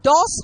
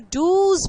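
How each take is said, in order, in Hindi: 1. स्वर एक खुला 'o' है, जैसे 'boss' में। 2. स्वर एक छोटा 'u' है और अंत में 'z' है। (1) "अगर डू में हम खाली एस लगा दे तो डॉस हो जाएगा" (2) "तो डूज बोलना पड़ता है"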